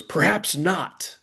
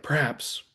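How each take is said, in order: First: High, drawn-out mock-triumphant declaration; grandly imitated triumph, pitched up and stretched. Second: Said in the usual way. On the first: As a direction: proclaim it slowly, imitating a triumphant flourish. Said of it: "then he triumphantly goes". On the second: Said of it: "or he goes, like".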